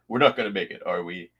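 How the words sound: It is said imitating Sulu's voice.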